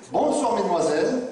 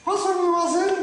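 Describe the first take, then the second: First: Said in the usual way. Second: High-pitched puppet echo; puppet repeating. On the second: Acted. Puppet copying the greeting to the young ladies, high puppet voice. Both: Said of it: "Tu vas répéter après moi".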